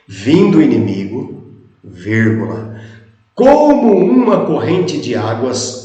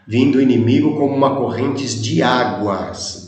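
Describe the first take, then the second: First: It breaks right after inimigo. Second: It runs on without a break after inimigo. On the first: The rushing stream is the Spirit of the Lord. "Vamos ler o texto como fica colocando a vírgula neste local?" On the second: The enemy comes like a rushing stream. "A vírgula foi colocada pelos copistas aqui, justamente nesse local"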